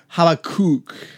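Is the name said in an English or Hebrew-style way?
Hebrew. The name is said with a throaty Hebrew-style sound. This is closer to the original language. "if we want to get Hebraic"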